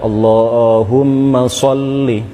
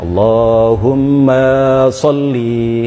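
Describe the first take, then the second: First: The vowels in 'ma' and 'li' are short. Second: The vowels in 'ma' and 'li' are drawn out. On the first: The speaker calls it right. "wajib dibaca pendek" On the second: The speaker calls it wrong. "tidak hanya salah di dalam memanjangkan sholli, ya, tetapi ma-nya juga dipanjangkan"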